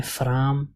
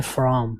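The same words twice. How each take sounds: First: "فرام" said as the mistake with a vowel after f; imitated wrong "فرام". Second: "فرام" said as one tight syllable, fram; correct "from". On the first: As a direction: mimic the common error "فرام". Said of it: "کچھ لوگ اس کو فرام پڑھتے ہیں". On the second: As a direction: give the right short "فرام". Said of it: "اس کو ہم پڑھتے ہیں فرام". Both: Shown as a demonstration.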